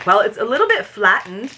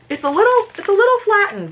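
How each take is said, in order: First: Said in the usual way. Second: Much higher, cartoonish squeak; squeaky voice over the flattened bag. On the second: Real, not acted. Squeaky repeat about squashed popcorn.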